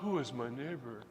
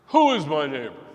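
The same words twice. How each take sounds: First: It is asked as a sincere, open question. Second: It is asked in a sarcastic lawyer's tone.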